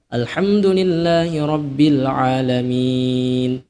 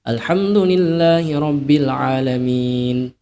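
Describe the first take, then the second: First: The final vowel is held moderately long. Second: The final vowel is held only briefly. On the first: "Empat harokat" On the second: "dua harokat"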